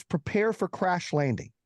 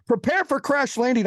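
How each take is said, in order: First: Stewardess announcement. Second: High, urgent imitation of a pilot; pilot announcement. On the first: Retold or imitated. Stewardess tells passengers over the intercom, slow mock announcement. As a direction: announce it slowly, imitating the stewardess. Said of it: "she gets on the thing". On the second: Pilot comes on to warn passengers, high-pitched urgent announcement. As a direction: announce it higher, with urgent force. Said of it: "The pilot comes on".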